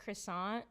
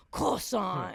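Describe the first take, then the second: First: Said in the usual way. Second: CROISSANT drawn out slowly with exaggerated vowels; overpronounced. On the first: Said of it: "people do it with other words too". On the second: People trying to hit a foreign word, CROISSANT slow and overpronounced. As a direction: overdo CROISSANT, stretching both syllables. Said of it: "when they try to hit that".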